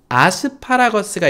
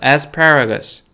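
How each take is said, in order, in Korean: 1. 한국식 외래어 발음으로 해요. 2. 영어식 발음으로 해요.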